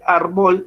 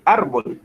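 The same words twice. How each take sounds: First: Árbol said with the stress wrongly on the last syllable, arBOL. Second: Árbol stressed on the first syllable, ARbol; correct stress. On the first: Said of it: "Usted no dice, usted no dice árbol". (árbol con acento mal puesto en la última sílaba) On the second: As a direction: lean on ar in árbol, the right way. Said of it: "sino dice árbol". (árbol con la fuerza en la sílaba ar) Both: Shown as a demonstration.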